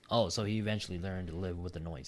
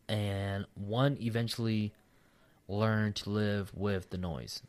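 First: Said in the usual way. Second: Halting read-aloud with long pauses; slow, broken-up reading. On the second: Real, not acted. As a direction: read it out slowly, stopping mid-sentence. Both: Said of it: "I'm reading slow as fuck".

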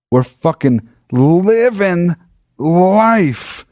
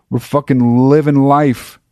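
First: High, slow, drawn-out triumph; hammed-up elation. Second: Raised pitch, moderate excitement; mildly elated. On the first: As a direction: stretch each word in mock-epic jubilation. Same triumph repeated, hammed up. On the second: Retold or imitated. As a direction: tell it riding high on triumph. Retelling triumph, first take before exaggeration.

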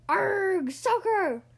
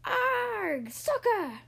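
First: Loud, high pirate echo; loud rowdy pirate cry; crew yell. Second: High pirate war cry; high, drawn-out pirate cry; pirate yell. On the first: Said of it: "the crew yelled". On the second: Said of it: "clicked the ball and yelled". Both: A narrator's reading.

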